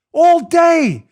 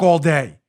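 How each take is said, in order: First: "All day" punched much higher and louder, falling; stress on All day. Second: Said in the usual way. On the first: Real, not acted. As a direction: hammer "All day" home in outrage.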